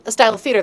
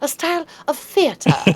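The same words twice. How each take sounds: First: The phrase is said in a plain, ordinary way. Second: Theater is said with a grand, theatrical flourish. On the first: The audience hears an everyday request. "they're going to say musical" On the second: The audience is nudged toward classical drama. "I'll say it like this, theater, and do a little flair"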